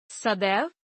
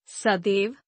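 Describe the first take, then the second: First: Said in the usual way. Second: सदैव with narrow e, "sadev"; mispronounced. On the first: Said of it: "शुद्ध". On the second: Shown as a demonstration. Teacher showing an e error, mispronounced with narrow e. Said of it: "अशुद्ध".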